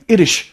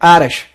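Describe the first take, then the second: First: It starts with a short 'ih' vowel. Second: It starts with a long 'eye' vowel. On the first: "तो ये British है, language accent this is British." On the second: "American में इसको आयरिश बोलेंगे"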